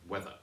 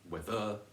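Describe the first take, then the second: First: The stress is on the first syllable. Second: The stress is on the second syllable. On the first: The speaker calls it right. "stressed on the first syllable" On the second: The speaker calls it wrong. "It's not whether"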